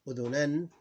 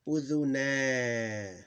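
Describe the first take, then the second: First: The word ends with an added n sound. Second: The word ends on a long a vowel. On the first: "the tanween for the أذنة" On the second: "We don't throw away the alif"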